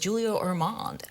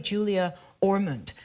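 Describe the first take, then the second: First: The surname is said in a French-sounding way. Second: The surname is said in a plain English way. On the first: The speaker calls it wrong. "that sounds very pretentious" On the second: The speaker calls it right. "It's actually Julia Ormond"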